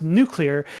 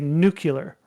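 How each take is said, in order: First: The word is said in the original form. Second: The word is said in the common variant form. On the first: This is the original pronunciation. The speaker calls it right. "it's pronounced nuclear" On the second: This is the widespread popular pronunciation. The speaker calls it wrong. "he would say nuclear"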